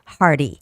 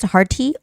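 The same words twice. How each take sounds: First: The T is said as a soft flap. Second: The T is said as a crisp hard stop. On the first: "or the soft T sound" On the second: "you can also make the hard T sound"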